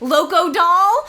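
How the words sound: The name is said the American way.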